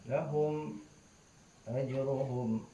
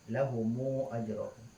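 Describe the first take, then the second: First: The m of lahum is closed with no vowel. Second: A short u vowel follows the m of lahum.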